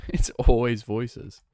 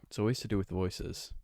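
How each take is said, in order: First: Slow, louder laughing "always" drawn out; exasperated stress on always. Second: Said in the usual way. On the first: Real, not acted. Streamer complaining chat always wants voices, laughing stress on always.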